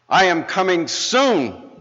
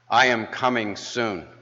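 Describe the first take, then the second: First: It is said almost shouting. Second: It is said in a moderately strong voice.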